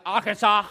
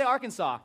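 First: Arkansas said loudly with the r's and n dropped; mispronounced Arkansas. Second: Said in the usual way. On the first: Shown as a demonstration. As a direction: say Arkansas wrong, like "ah-ka-sah". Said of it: "you don't know how to say Arkansas". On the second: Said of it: "you don't know how to say".

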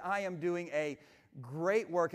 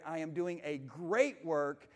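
First: Said in the usual way. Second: Slow, with great drawn out and weighted; stress on great. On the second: Shown as a demonstration. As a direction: lean hard on great, say it slowly. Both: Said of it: "I want to emphasize the word great".

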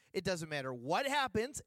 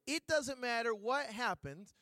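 First: Said in the usual way. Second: Each word drawn out slowly, like a sales pitch; a slow, persuasive sales-lady promise; slow, deliberate quote. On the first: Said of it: "restating the warranty plainly". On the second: Retold or imitated. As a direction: lean on it slowly, selling it. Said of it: "This is what the lady said".

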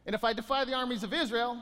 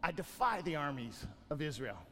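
First: Said in the usual way. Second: Low, soft, menacing giant's boast; hint of a giant sneering at Israel; Goliath's taunt. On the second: Preacher voicing Goliath to the congregation, low and soft.

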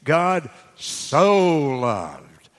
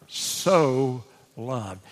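First: Very slow, "so" in "God so loved" stretched long and louder; "God so loved" said very slowly, "so" held long and louder. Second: "so" held and leaned on, "loved" falling away; stress on so. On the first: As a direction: savour "so" in "God so loved" as the biggest word. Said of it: "Boy, that's a big word now". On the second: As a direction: lean into "so" in "so loved", falling after. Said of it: "He didn't just love, he so loved". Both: Shown as a demonstration.

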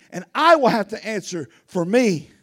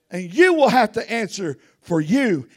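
First: I stressed, falling. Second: You stressed, falling. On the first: Preacher confessing to the church, stress on I. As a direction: hit the word I. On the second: Preacher warning the church, stress on you. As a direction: hit the final you. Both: Shown as a demonstration. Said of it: "stressed parallel".

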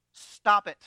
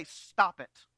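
First: Firm command. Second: Said in the usual way. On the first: Shown as a demonstration. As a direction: Stop it, said much louder and firm. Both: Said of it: "stand up to the rabble and say".

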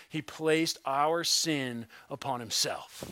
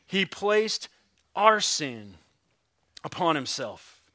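First: Said in the usual way. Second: "He placed", "our sin", "upon himself" set apart by pauses; weighty pause after "He placed" and after "our sin", falling away on "upon himself"; emphatic pauses. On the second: Shown as a demonstration. Repeats key statement for weight.

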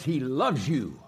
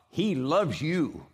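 First: Said in the usual way. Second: He loves you, slow and weighty; He loves you, drawn out and firm; emphatic and slow. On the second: Shown as a demonstration. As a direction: lay down He loves you word by word, leaning on He. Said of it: "whether God loves you or not".

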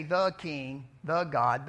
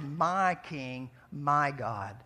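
First: "the" hit firmly before King and before God; stress on THE. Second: "My" hit firmly before King and before God; stress on MY. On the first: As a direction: set "the" apart, strongly stressed. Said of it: "He didn't say". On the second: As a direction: lean hard on the possessive "my". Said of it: "but he said". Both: Shown as a demonstration.

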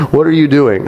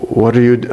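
First: Put-on a half-hearted Russian accent, higher and laughing through it; preacher gamely tries the Russian doctor's accent after all. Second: Said in the usual way. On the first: Preacher reading a testimony mimics the Russian doctor, half-hearted Russian accent. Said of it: "She tries in the email". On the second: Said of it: "I can't do a Russian accent".

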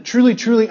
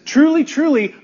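First: Said in the usual way. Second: "Truly, truly" lifted much higher, each "truly" stressed; emphatic quote. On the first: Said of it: "Jesus says". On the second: Shown as a demonstration. Preacher quotes Jesus to the congregation, "Truly, truly" pitched high and insistent. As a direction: ring out "Truly, truly" as a firm declaration. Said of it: "Right off the bat, Jesus says".

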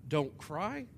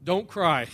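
First: Questioning echo with rising end; disbelieving, rising at the end; incredulous echo. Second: Said in the usual way. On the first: Acted. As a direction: throw it back as a disbelieving question. Echoes the words in disbelief. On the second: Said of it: "walks right up to her and says".

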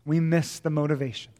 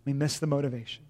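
First: Said in the usual way. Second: Quiet repeat of "We miss the motivation" for weight; softer echo. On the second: Shown as a demonstration. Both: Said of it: "repeated line".

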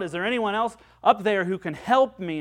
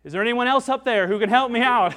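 First: Raised voice, calling up a cliff; calling out for help. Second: Loud, higher and fast desperate shout; shouted back. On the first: Man hanging from a branch calls up, a raised call for help. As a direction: call up for someone to help you. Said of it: "finally he called out". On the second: Man on the branch refuses to let go, shouting loud and fast. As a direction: yell it up in comic panic. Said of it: "shouted back". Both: Acted.

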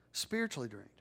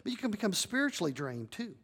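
First: Softer, falling repeat of the phrase; quiet echo. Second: Said in the usual way. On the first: Shown as a demonstration. Pastor echoing to the congregation, softly. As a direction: let it sink in, low and soft.

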